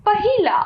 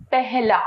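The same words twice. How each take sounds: First: इ vowel after ह in पहिला; mispronounced पहिला. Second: No इ in पहला; correct पहला. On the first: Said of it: "अशुद्ध". (पहिला, अशुद्ध रूप में इ के साथ) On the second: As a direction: say पहला as "peh-laa". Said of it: "इसका शुद्ध है". (पहला का शुद्ध उच्चारण, बिना इ के) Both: Shown as a demonstration.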